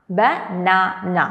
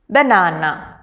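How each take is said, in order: First: Slow "banana" as ba, na, na; broken into syllables. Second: Said in the usual way. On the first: Shown as a demonstration. Teacher breaking words into three parts, "banana" slow and split. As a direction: sound out "banana" in three separate beats. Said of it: "three parts". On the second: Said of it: "these words can be broken".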